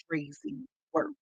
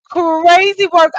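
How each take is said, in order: First: Said in the usual way. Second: Slow, loud and higher, crazy work stretched out; emphatic repeat. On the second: Real, not acted. Repeating her verdict to viewers, slow and emphatic. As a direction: lean hard on each word.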